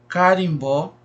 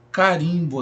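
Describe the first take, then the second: First: "carimbó" with the final BÓ stressed; stress on last syllable. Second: "carimbo" with RIM stressed; stress on second syllable. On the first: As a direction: set the weight on BÓ in "carimbó". ("carimbó" com a tônica no BÓ) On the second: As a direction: set the weight on RIM in "carimbo". ("carimbo" com a tônica no RIM) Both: Shown as a demonstration. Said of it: "marca a posição diferente da sílaba tônica".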